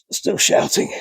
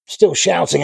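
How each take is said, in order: First: Hushed whisper; voiceless, softened aside; whispered self-correction. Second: Said in the usual way. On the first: Real, not acted. Catches himself shouting, drops voice.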